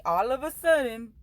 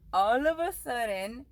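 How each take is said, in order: First: All of a sudden, punched out louder; louder emphasis. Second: All of a sudden, drawn out slowly word by word; slow down and lean on all of a sudden; slow emphasis. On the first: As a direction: hit it hard, all of a sudden. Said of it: "repeats phrase for emphasis". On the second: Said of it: "repeats phrase slower". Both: Real, not acted.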